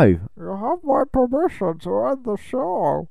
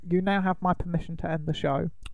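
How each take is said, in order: First: It is said in a Bane impression. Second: It is said in his normal voice.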